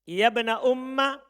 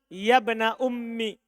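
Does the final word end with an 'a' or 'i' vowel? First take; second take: a vowel; i vowel. First: The last word ends with an 'a' vowel. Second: The last word ends with an 'i' vowel. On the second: "Kasro terus hilang siapa?"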